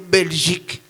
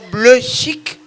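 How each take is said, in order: First: The word starts with a clear 'bel' sound. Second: The word starts with a 'bleu' sound instead. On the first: The speaker calls it right. "incapable de prononcer le mot Belgique" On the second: The speaker calls it wrong. "Lumumba prononçait la bleu chic"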